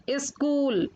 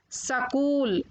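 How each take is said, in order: First: Said in the usual way. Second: सकूल with an a between s and k; mispronounced स्कूल. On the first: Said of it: "फिर उनका शुद्ध उच्चारण". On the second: Shown as a demonstration. Teacher showing children the error, सकूल said "sa-kool". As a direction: break the opening cluster into "sa-kool", सकूल. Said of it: "अशुद्ध शब्द मैंने रखे हैं".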